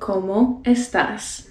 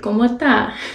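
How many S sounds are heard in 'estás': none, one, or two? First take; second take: two; none. First: Both S sounds in estás are pronounced. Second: Every S sound in estás is dropped. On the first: This is the standard way to say it. "You can say" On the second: This sounds very slangy. "really sound slangy, ... Just drop all the S's"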